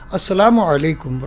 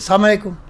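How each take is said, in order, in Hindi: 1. अभिवादन हर अक्षर के साथ पूरा बोला जाता है। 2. अभिवादन को एक छोटे, अस्पष्ट शब्द में काट दिया जाता है।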